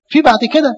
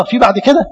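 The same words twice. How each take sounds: First: في بعد كده. stated firmly, pitched higher with weight on في; emphatic answer. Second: Asking في بعد كده؟ with a questioning lift on كده; rhetorical question. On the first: Priest answers his own question about God's forgiveness, emphatic. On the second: Priest asks the congregation whether there is a farther distance, questioning. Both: Shown as a demonstration.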